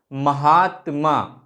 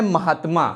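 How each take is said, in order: First: महात्मा said very slowly, stretching the long आ in the middle; long middle vowel. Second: Said in the usual way. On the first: Shown as a demonstration. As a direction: draw out the आ of महात्मा for the class. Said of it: "शब्द के मध्य में हम लोग दीर्घता का उच्चारण करेंगे". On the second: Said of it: "शब्द के मध्य में हम लोग दीर्घता".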